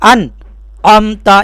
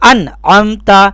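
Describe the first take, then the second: First: There is a brief pause after 'an'. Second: It flows on without any pause after 'an'. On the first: The speaker calls it wrong. "यहाँ पर सक्ता कर देते हैं" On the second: The speaker calls it right. "वहाँ पर आपको इस तरीक़े से पढ़ना है"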